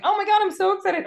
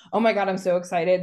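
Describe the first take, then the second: First: Much higher, fast, louder squeal; the other woman, shrieking with fake glee; squealy mock excitement. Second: Quick, lightly hyped-up chatter; fast mock gush from the first woman; mock excited gush. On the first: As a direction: parody a gushing host, pitch way up. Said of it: "And the other one's like". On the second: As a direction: imitate an eager video host, a touch excited. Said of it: "and it's like the".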